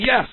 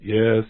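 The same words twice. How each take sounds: First: It is said loudly with strong energy. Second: It is said flatly without much energy.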